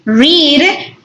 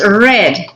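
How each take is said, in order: First: The vowel is long, like in 'reed'. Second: The vowel is short, like in 'red'. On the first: The action happens in the present. "Read in present" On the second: The action happened in the past. "So in past, that is read"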